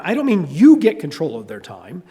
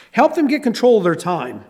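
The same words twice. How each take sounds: First: "you" stressed with a rising tune. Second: "them" stressed, falling at the end. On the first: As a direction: hit the word "you" hard. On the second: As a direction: lean on "them", not on you. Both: Shown as a demonstration. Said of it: "When I say get control of their time".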